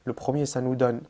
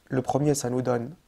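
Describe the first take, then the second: No difference in how they are said.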